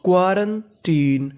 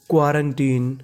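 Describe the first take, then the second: First: क्वारंटीन slowly in two parts, क्वारन, then टीन; word in joined parts. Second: Said in the usual way. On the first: Shown as a demonstration. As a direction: sound out क्वारंटीन slowly, pausing before टीन. (क्वारंटीन को धीरे-धीरे टुकड़ों में पढ़ना) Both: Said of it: "पूरी meaning मिला के पढ़ते हैं".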